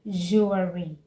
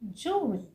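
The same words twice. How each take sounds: First: An extra uh vowel is added mid-word. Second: No extra uh vowel is added mid-word. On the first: The speaker calls it wrong. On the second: The speaker calls it right.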